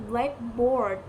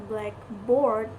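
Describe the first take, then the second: The two takes are said the same way.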